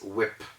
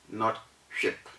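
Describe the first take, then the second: First: It begins with a plain w sound. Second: It begins with a breathy h sound. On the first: The speaker calls it right. "The word is whip" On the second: The speaker calls it wrong.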